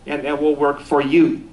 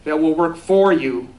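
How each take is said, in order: First: YOU made the strong word at the end; stress on YOU. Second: FOR leaned on, phrase slowed right down; stress on FOR. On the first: Speaker emphasizing each word of that phrase, stress on YOU. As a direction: land firmly on the word "you". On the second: Speaker emphasizing each word of that phrase, stress on FOR. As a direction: slowly hit the word "for". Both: Shown as a demonstration. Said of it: "I'll emphasize each word of that phrase".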